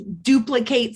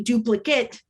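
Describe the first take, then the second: First: "duplicate" ending in a full "kate"; verb pronunciation. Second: "duplicate" ending in a reduced "kit"; noun pronunciation. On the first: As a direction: say "duplicate" as a verb, long A at the end. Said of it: "that's the verb". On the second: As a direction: say "duplicate" as a noun, weak last vowel. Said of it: "we have a duplicate noun as well". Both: Shown as a demonstration.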